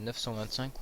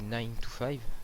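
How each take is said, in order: First: The number is read the French way. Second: The number is read the American English way. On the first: The speaker calls it wrong. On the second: The speaker calls it right.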